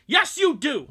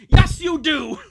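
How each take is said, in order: First: High, loud parent's insistence; firm reply. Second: Very loud, high parent's answer, YES hit hardest; forceful retake. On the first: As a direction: shut the argument down. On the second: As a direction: bellow YES like a final word. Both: Acted. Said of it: "Oh, wait, no, sorry".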